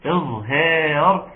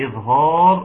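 First: "إظهار" slow, with a thin, fronted long a after the h; correct light pronunciation. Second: "إظهار" with a heavy, rounded long a after the h; wrong heavy pronunciation. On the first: Teacher models the term for students, "إظهار" slow with a light long a. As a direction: draw out "إظهار" with a light "haa", not a rounded one. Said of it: "أما تاني بقول إظهار". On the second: Teacher shows the slip students should catch, "إظهار" with a heavy long a. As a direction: thicken the "haa" in "إظهار" toward "haw". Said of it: "قولوا لي: ارجع يا شيخ". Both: Shown as a demonstration.

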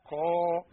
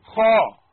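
First: A gentler خاء; corrected خاء. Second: خاء rasped hard and loud from the throat; clear خاء. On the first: Teacher gives the corrected letter. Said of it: "لا". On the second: Teacher shouts the letter for drill. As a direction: rasp the خاء out forcefully. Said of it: "هي جاية بين الخاء والإيه؟". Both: Shown as a demonstration.

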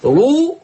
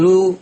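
First: رو with a heavy, dark r; تفخيم. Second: رو with a light, thin r; ترقيق. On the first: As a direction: thicken the r in رو. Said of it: "رو مفخمة". (رو براء مفخمة) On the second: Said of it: "لكن رو مرققة". (رو براء مرققة) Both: Shown as a demonstration.

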